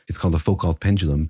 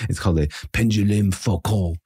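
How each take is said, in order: First: It is said in the speaker's plain accent. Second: It is said in a put-on French accent.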